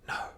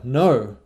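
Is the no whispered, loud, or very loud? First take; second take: whispered; loud. First: The word is whispered softly. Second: The word is said moderately loud.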